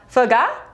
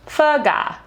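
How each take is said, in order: First: The voice rises at the end. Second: The voice falls at the end.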